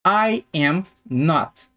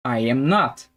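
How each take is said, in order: First: Slow, separated I, AM, NOT; slow word-by-word. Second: Said in the usual way. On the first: Shown as a demonstration. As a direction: pause between the words for learners. Teacher models negative slowly, then connected.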